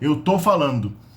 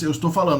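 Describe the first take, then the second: First: The verb drops its first syllable, 'tô'. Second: The verb keeps its first syllable, 'estou'. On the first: It is the everyday way people speak. The speaker calls it right. "the first syllable is dropped" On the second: It sounds formal. The speaker calls it wrong. "That's too formal"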